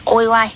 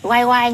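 First: "ôi oai" with first syllable ôi; "ôi oai", two unlike syllables; misread word. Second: "oai oai" with both syllables alike; "oai oai", first syllable oai, not ôi; corrected reading. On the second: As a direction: say "oai oai", oai twice over. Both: Shown as a demonstration. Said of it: "Em nhìn nhầm thành ôi oai".

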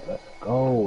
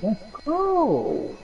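First: Said in the usual way. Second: Much higher, stretched out; high drawn-out victory cheer; excited cheer. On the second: Real, not acted. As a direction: hype it up like you just got the loot. Hyped after weapon upgrade.

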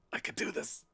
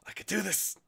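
First: Breathless whisper to yourself; whispered self pep talk. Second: Self-encouragement up high; high-pitched self pep talk. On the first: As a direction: steel your nerve in a whisper. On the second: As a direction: coax yourself into it brightly. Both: Real, not acted.

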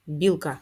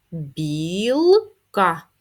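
First: Said in the usual way. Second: Білка. drawn out and louder, syllable by syllable; teacher modelling slow reading. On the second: Shown as a demonstration. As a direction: read Білка. slowly by syllables. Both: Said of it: "прочитаємо їх".

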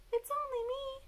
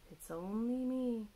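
First: Very high, tiny bat voice; high-pitched storybook bat; bat character. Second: Calm storybook dad, near natural pitch; lightly voiced father owl; dad character. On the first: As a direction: squeak it right at the top of your voice. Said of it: "said Bat". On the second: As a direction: say it as an easy, reassuring dad. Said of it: "said Dad". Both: A narrator's reading.

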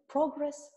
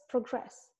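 First: Progress with PRO punched higher and louder; stress on first syllable. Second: Progress with GRESS stressed, verb style; stress on second syllable. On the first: Teacher showing the noun, PRO stressed. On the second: Teacher showing the verb, GRESS stressed. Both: Shown as a demonstration. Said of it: "Sau ce avem noi?".

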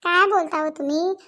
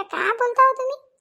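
First: Said in the usual way. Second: Raised, slower, exclaiming neighbor; a high, slow gossiping neighbor asking in disbelief; higher village woman voice. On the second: Acted. Neighbor woman exclaiming to her friends, high and slow. Same line, higher put-on voice.

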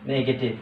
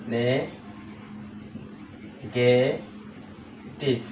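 First: Said in the usual way. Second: "negative" very slow and soft, as নে, গে, টিভ; long pauses between the three syllables of "negative". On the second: Shown as a demonstration. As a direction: break "negative" into three drawn-out pieces. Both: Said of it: "ভাগ ভাগ করে বলতে পারছি".

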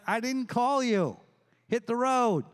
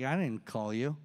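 First: Higher-pitched mild exasperation; Eli, exasperated. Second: Low, soft reply from someone asleep; sleepy Eli. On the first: Eli to Samuel waking him a second time, exasperated. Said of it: "He's like". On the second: Eli to young Samuel at night, sleepy and low. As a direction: answer low, as if half woken. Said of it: "Eli's asleep". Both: Acted.

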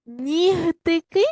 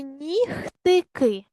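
First: "Нігтики" higher, louder, drawn out with voiced h. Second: "нігтики" drawn out, voiceless kh before t. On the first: Teacher offers pupils the first spelling choice, voiced h. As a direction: say "Нігтики" slowly with a voiced г before t. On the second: Teacher offers pupils the wrong spelling choice, voiceless kh. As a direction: say "нігтики" slowly with х in place of г. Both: Shown as a demonstration. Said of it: "вставивши правильні букви".

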